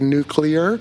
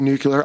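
First: The word is said with a 'clear' sound, nuclear. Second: The word is said with a 'cu' sound, nucular. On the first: This is the way the speaker tries to say it. The speaker calls it right. "I try to say nuclear" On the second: This is the speaker's habitual way of saying it. The speaker calls it wrong. "I'm just going to say nuclear"

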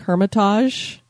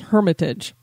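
First: The word is pronounced with a French-sounding style. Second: The word is pronounced in a plain English style. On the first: The speaker calls it wrong. "I was going for more of a French sound" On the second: The speaker calls it right. "the correct pronunciation is Hermitage"

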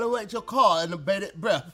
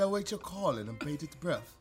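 First: It is spoken in a Cockney-sounding accent. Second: It is spoken in a more posh British accent. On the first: The speaker calls it wrong. "that was Cockney" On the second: The speaker calls it right. "Is that better? A little bit"

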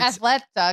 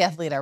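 First: The name begins like the word athletic. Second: The name begins like the word athlete. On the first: "because it's like athletic" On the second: "right? Athlete"

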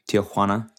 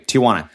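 First: The name is said with a Spanish accent. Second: The name is said with an American English accent. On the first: "I think I pronounce it correctly there, like a Mexican would"

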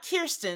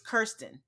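First: The first syllable does not rhyme with fur. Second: The first syllable rhymes with fur. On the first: The speaker calls it wrong. "Not Kirsten, like we've been saying" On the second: The speaker calls it right. "It's Kirsten"

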